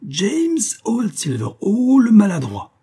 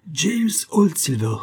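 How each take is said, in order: First: High, slow, sneering madman's taunt; mock him from way up high, then louder on the insult; odious mocking voice. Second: Lightly voiced mocking madman, drawn out slowly; sing-song taunt, the name stretched; odious mocking laugh-voice. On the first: The masked madman jeering at clumsy James, high and mocking. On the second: The madman taunting James by name, mocking. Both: A narrator's reading. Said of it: "Le rire odieux de Big Johnson".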